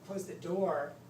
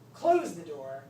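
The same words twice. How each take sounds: First: The word door carries the main stress. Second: The word close carries the main stress. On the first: The thing to be closed is the door. "to emphasize that you're, the thing you want to close is the door" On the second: The action wanted is closing it. "to emphasize that they already understand the door is involved, but they need to understand that they want to close it"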